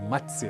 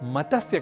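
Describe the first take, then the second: First: The middle consonants t, s, y are joined. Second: A vowel breaks up the middle consonant cluster. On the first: The speaker calls it right. "हमें इसका उच्चारण करना चाहिए" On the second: The speaker calls it wrong. "मत्स्य कहना तो अशुद्ध है"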